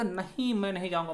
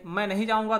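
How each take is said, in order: First: Opening नहीं stressed with a lift; emphatic refusal. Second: Said in the usual way. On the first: Shown as a demonstration. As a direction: lead with a firm नहीं. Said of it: "अस्वीकृत के बोध में बल दे दिया". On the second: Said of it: "ये भी sentence था".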